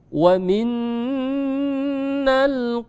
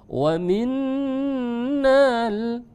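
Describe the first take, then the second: First: The vowel after 'minn' is short. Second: The vowel after 'minn' is drawn long. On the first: The speaker calls it right. "tidak dibaca panjang" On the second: The speaker calls it wrong. "enggak boleh"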